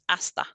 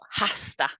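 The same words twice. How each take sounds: First: The h at the start is silent. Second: The h at the start is sounded. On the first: The speaker calls it right. "it's a silent H" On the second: The speaker calls it wrong. "It's not hasta"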